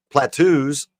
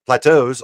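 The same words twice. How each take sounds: First: "Plateaus" misread as "pla-TOOS"; misread word. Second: Said in the usual way. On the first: Real, not acted. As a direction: end "Plateaus" on an OO sound. Misreads, then corrects the word.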